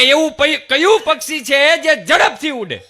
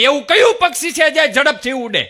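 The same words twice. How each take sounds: First: Again loud and high, a little cocky; mock loud student question repeated; repeated quiz question. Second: Loud, high schoolboy question; mock loud student question; quiz question, loud. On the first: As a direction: fire the riddle back louder. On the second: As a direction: blurt the riddle out loud and high. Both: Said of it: "ફરીથી બોલો".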